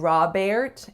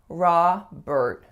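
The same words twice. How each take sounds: First: The second syllable has an 'air' vowel. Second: The second syllable has an 'er' vowel. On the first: The speaker calls it wrong. "more of an air sound" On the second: The speaker calls it right. "it's er"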